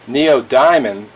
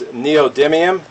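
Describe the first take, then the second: First: The word sounds like 'Neil Diamond' inside it. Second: The middle sounds like 'dim', not 'diamond'. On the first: The speaker calls it wrong. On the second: The speaker calls it right.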